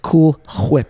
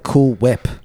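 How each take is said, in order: First: Whip starts with a breathy h before the w. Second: Whip starts with a plain w, no h sound. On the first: The speaker calls it right. "it's Cool Whip" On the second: The speaker calls it wrong. "You forgot to pronounce the H when you said Cool Whip"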